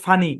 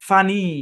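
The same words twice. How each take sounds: First: The final vowel is short and clipped. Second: The final vowel is long and drawn out. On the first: "রস্য" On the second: "একটু টান হবে, মানে long ইয়ের sound হবে"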